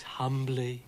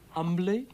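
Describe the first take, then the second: First: Said in the usual way. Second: Character voice. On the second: A narrator's reading. Character questions the apology.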